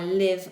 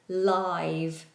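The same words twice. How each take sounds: First: The vowel sounds like ih. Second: The vowel sounds like eye. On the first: Someone resides somewhere or spends a life. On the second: Something is happening right now.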